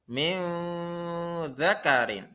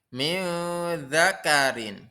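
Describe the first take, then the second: No difference in how they are said.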